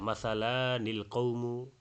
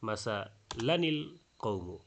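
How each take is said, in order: First: The vowel before the n is drawn out long. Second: The vowel before the n is kept short. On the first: The speaker calls it wrong. "এক আলিফ লম্বা করে ... এইভাবে অনেকে তেলাওয়াত করে ফেলতে পারেন" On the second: The speaker calls it right. "এই আলিফটা ... লিখতে আসে পড়তে আসে না"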